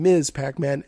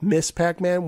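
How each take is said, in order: First: The title ends with a buzzing z sound. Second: The title ends with a hissing s sound. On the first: "M S is Miz, you have the Z sound" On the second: "without the Z sound"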